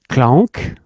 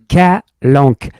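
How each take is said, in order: First: The first vowel is dropped, giving one syllable. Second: The first vowel is pronounced, giving two syllables. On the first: The speaker calls it wrong. "we don't say clank" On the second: The speaker calls it right. "we say K slash lank"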